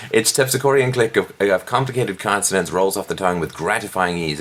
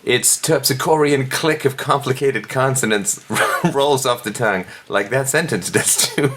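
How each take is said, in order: First: Said in the usual way. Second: High, laughing over the florid words; amused, overdone recital; laughing mock read. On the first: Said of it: "like a jackhammer to the forehead". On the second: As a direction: read it while cracking up.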